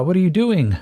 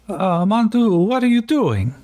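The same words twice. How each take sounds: First: Raised, louder, disbelieving question; exasperated surprise. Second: Bad Quebecian French accent. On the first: Real, not acted. Player cries out at Jean-Francois after the roll explodes, exasperated. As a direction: groan it at your own character's bad luck. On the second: Radio voice calls to Yakim over the CB in a bad Quebecian French accent. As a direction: ham up a terrible Quebecian French accent on purpose. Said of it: "Let's see how terrible I can do a Quebecian French accent".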